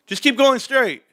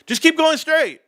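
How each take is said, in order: First: Put-on high kid voice directing. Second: Put-on higher, louder kid repeat. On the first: Kids guiding cops from the back seat, high confident voice. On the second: Kids repeating directions to confused cops, higher louder voice. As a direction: repeat it brightly to the puzzled cops.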